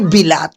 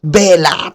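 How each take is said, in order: First: The first vowel sounds like 'i'. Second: The first vowel sounds like 'e'. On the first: The speaker calls it wrong. "Hindi bilat" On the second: The speaker calls it right.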